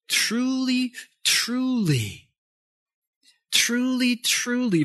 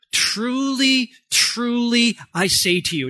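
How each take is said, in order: First: Truly said four times, high but softer, each one leaned on; softer emphatic repetition. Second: Truly, truly raised high and leaned on, I say to you firmly; emphatic. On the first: Preacher repeats Jesus's words to congregation, soft emphasis. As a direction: repeat truly gently, like a confiding promise. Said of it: "So that's his emphatic way". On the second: Preacher shows Jesus's emphatic way to congregation, emphatic. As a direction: stress both Truly words, higher. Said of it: "in his emphatic way, does this". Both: Shown as a demonstration.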